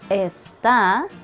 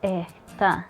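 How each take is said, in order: First: A clear s sound comes before the t. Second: A breathy h sound replaces the s. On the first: "instead of está" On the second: "I say está"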